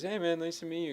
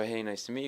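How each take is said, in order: First: Higher-pitched, lightly imitated friendly star. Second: Said in the usual way. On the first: Music star greets a fan, higher imitated voice. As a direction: greet the stranger in a higher put-on voice. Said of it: "He goes". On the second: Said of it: "So I go up, I go".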